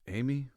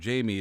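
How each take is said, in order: First: The name is said with Spanish pronunciation. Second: The name is said like English Jamie. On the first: The speaker calls it right. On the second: The speaker calls it wrong. "I thought his name was Jamie"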